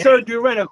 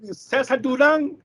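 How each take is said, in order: First: The first name sounds like English 'Caesar'. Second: The first name sounds like Spanish 'Cesar'. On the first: The speaker calls it wrong. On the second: The speaker calls it right.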